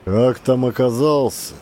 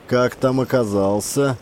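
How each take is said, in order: First: «Как там оказался?» repeated thoughtfully, falling on «оказался»; falling echo. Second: «Как там оказался?» asked, rising at the end; rising question. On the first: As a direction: stress on «оказался», falling tune. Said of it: "echoes the question". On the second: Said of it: "А война?". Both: A narrator's reading.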